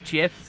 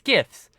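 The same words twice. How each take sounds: First: The word starts with a soft J sound. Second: The word starts with a hard G sound. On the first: This is how the creator says it. The speaker calls it wrong. "somehow thinks it's GIFs" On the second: This is how the speaker says it. The speaker calls it right. "It's a hard G"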